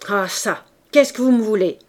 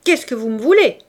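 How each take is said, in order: First: Loud, stern, angry demand; solemn, irate old man's question; wrathful and grave. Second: Loud, anguished angry demand; exclaimed in wounded rage; pained anger. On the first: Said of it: "d'une voix courroucée et grave". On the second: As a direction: cry it out, hurt and furious. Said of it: "avec une douleur poignante et pleine de colère". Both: A narrator's reading.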